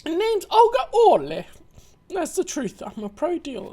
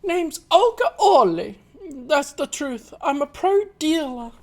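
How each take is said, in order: First: Put-on higher, bolder Russian accent; confident Russian accent. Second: A hint of Russian, pitched up; half-formed Russian accent, still finding it; first try Russian accent. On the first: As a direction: lift the pitch and own the Russian accent. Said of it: "raises it up a bit". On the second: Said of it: "I need to get into the Russian voice again".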